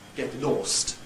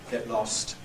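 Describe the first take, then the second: First: The vowel in 'lost' is long, like 'or'. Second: The vowel in 'lost' is short, like 'oh'. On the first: This is the old-fashioned pronunciation from the early century. The speaker calls it wrong. "received pronunciation on the whole still had" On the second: This is the normal present-day pronunciation. The speaker calls it right. "normally pronounced with a short vowel"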